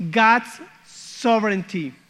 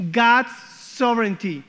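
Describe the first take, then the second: No difference in how they are said.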